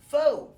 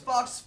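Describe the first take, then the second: First: The word ends on a plain vowel. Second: The word ends with a k-s sound. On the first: The speaker calls it right. "It's actually pronounced faux" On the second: The speaker calls it wrong. "I've been saying it wrong my whole life"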